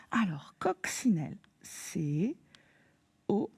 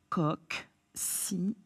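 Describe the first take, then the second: First: Chuchoté. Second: Chuchoté lentement. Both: Shown as a demonstration. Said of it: "épellation du mot".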